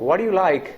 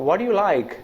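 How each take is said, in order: Both takes have the same delivery.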